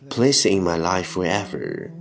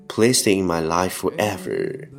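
Both takes have the same delivery.

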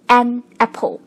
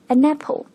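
First: The two words are said separately. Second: The n sound links into the next word. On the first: "所以是An Apple" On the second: "人家说起来是An Apple"

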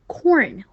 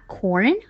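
First: The pitch falls sharply across the word. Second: The pitch rises across the word. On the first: "要四声发corn" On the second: "或者二声发corn horn 这样也可以"

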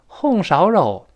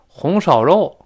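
First: It is said in Henan dialect. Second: It is said in Tianjin dialect. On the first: "河南话红烧肉" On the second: "天津话红烧肉"

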